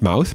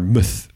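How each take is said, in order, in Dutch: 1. Het woord is een volledige 'mouth'. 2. Het woord is een ingekorte 'muth'. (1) "Mouth is niet Mouth" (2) "maar Muth"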